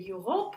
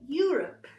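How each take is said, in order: First: The stress is on the second syllable. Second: The stress is on the first syllable. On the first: The speaker calls it wrong. "if you are a French speaker, you could try to say Europe or here, yeah, to the second" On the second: The speaker calls it right. "No, it's Europe. And the stress goes to this first syllable"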